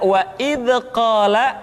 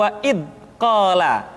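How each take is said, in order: First: First "wa id qala" with "id" bouncing into an extra vowel; bounced dz. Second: "wa id qala" with "id" stopped before a small gap; held-back dz. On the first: Teacher recapping what to avoid, "id" bounced. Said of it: "suara seringkali dipantulkan". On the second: Teacher recapping the other mistake, "id" stopped dead. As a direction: block "id", then say "qala". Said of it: "suara yang seringkali tertahan". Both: Shown as a demonstration.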